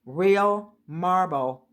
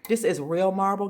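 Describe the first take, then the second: First: "Real marble" drawn out very slowly, word by word; emphatic. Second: Said in the usual way. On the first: Real, not acted. Vlogger showing viewers her bargain table, stressing "Real marble" slowly. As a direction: stretch both "Real" and "marble" for weight.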